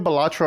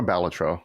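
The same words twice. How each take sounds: First: Balatro said buh-LAH-tro; stress on second syllable. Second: Balatro said BAL-uh-tro; stress on first syllable. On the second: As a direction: stress the start of Balatro, as in "ballot". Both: Shown as a demonstration. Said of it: "is it Balatro or Balatro?".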